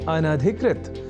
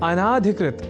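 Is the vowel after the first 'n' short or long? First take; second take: short; long. First: The vowel after the first n is short. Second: The vowel after the first n is long. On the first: The speaker calls it right. "वह शब्द है अनधिकृत" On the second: The speaker calls it wrong. "अनाधिकृत इस रूप में न केवल लिखने की ही अपितु बोलने की भी प्रवृत्ति या कुप्रवृत्ति"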